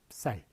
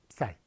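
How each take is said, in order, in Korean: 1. b는 s 앞에서 입술을 닫은 채 짧게 나는 소리예요. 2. b는 s 앞에서 입술을 닫은 채 짧게 나는 소리예요.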